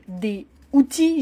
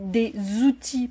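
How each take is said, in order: First: The words are said separately without a linking z. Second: The words are joined with a linking z sound. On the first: The speaker calls it wrong. "J'ai pas dit par exemple des outils" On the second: The speaker calls it right. "j'ai dit des outils parce que c'est la manière dont on s'exprime en français"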